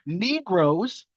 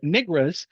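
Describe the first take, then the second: First: The word is said carefully with full vowels. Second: The word is said fast with slurred, reduced vowels. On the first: This is the earlier full form. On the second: This is the later reduced form.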